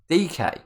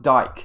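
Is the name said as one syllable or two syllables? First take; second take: two syllables; one syllable. First: The name is two syllables, like dee-kay. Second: The name is one syllable rhyming with bike. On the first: The speaker calls it right. "apparently, according to that guy, it's D K" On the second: The speaker calls it wrong. "it's not pronounced Dyke"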